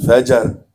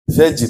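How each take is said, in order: First: It is said as two syllables, 'fa-jar'. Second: It is said as one syllable, ending 'jr'. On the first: The speaker calls it wrong. "bukan fajar" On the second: The speaker calls it right.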